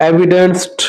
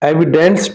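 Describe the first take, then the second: Both takes have the same delivery.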